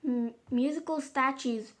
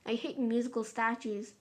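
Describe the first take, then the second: First: A mom brightly launching the next party game; bright announcement. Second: A lightly voiced moody moan, no lift; mild moan. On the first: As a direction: cheerfully announce the game, a bit louder. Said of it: "announced Mom brightly". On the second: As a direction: grumble it flatly, fed up. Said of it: "moaned moody Margaret". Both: A narrator's reading.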